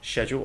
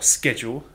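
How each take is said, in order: First: It is said with a British pronunciation. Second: It is said with an American pronunciation.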